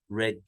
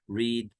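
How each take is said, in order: First: The vowel is short, like 'red'. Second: The vowel is long, like 'reed'. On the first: This is the past form of the verb. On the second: This is the present form of the verb.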